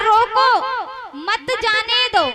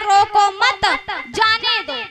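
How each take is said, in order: First: The pause comes right after 'roko'. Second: The pause comes right after 'mat'.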